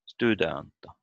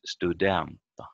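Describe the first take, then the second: First: "Studenta" wrongly stressed on STU; stress on first syllable. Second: "studenta" correctly stressed on DEN; stress on second syllable. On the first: Teacher repeats the mistake, "Studenta" stressed on STU. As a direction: hit the opening of "Studenta", then fall away. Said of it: "It's not". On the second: Teacher corrects the mistake, "studenta" stressed on DEN. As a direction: move the stress to the middle of "studenta". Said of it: "It's studenta". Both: Shown as a demonstration.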